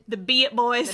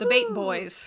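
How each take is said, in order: First: The name is said as two syllables, be-it. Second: The name is said as one syllable, bait. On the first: The speaker calls it right. "It's Be It" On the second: The speaker calls it wrong. "I know that's not how it's pronounced"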